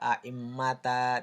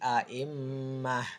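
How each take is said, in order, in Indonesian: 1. Kata itu berakhir dengan bunyi ta. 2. Kata itu berakhir dengan bunyi h. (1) "jadi tidak a'immata, tidak" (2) "tetapi a'immah"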